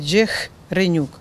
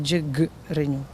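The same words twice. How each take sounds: First: The middle consonant is an h sound. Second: The middle consonant is a hard g sound. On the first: This is how the new spelling reads. The speaker calls it wrong. "пишеться буква H. Якщо читати, то буде Джигренюк" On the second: This is the real name. The speaker calls it right. "а не Джигренюк"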